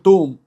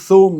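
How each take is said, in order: First: The word begins with a 't' sound. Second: The word begins with a 'th' sound. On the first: "نقول توم" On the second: "ما نقولش ثوم"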